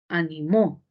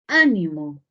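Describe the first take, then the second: First: The stress is on the last syllable. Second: The stress is on the first syllable.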